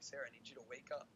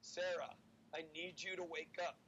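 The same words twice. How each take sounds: First: It is said a little bit louder. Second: It is said in a loud voice.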